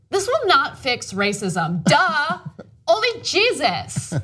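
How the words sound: It is read in a put-on airhead voice.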